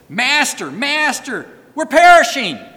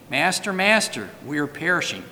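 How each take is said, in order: First: It is said as an urgent exclamation. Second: It is said calmly, without urgency.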